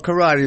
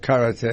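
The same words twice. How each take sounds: First: Karate is said in a Southern American way. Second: Karate is said in the traditional way. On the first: "karate is okay" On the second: "the proper pronunciation of it"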